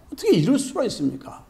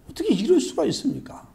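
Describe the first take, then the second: First: Fast, pushy demand, leaning on 어떻게; heated protest. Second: High, aggrieved cry of unfairness; indignant protest. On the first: Worker confronts the master, fast and heated. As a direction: rattle off 어떻게 이럴 수가 있습니까 in a rush of grievance. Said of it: "막 원망하고 따져대는 거예요". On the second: Worker protests to the master, high and aggrieved. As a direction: stress on 이럴, a wounded how-could-you. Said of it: "따지고 원망하고 불평을 하는 거예요". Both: Acted.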